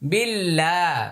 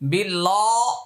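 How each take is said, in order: First: The L is pronounced thin and light. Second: The L is pronounced thick and heavy. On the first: The speaker calls it right. "তাই এটা মোটা হবে না, পাতলা হবে" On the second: The speaker calls it wrong. "এটা হলে ভুল হবে"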